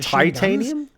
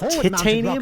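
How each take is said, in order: First: It is said with an American pronunciation. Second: It is said with a British pronunciation. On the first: "and not titanium?" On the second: "Do British people call it titanium"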